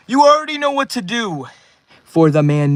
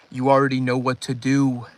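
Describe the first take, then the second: First: High, loud hype call to chat; rally the chat, pitched up and loud; hype shout. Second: Said in the usual way. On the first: Real, not acted. Hyping chat for a donor.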